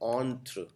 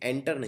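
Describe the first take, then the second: First: The first part sounds like 'on'. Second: The first part sounds like 'enter'. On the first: The speaker calls it right. "इसको बोलते हैं ऑन्ट्र" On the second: The speaker calls it wrong. "ये एंटर नहीं है"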